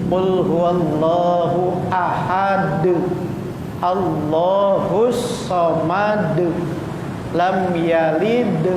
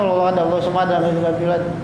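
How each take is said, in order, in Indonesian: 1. Huruf d di akhir ahad terdengar jelas. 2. Bacaannya terburu-buru dan huruf d di akhir hilang. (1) "Bacanya yang benar" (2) "Karena saking cepatnya"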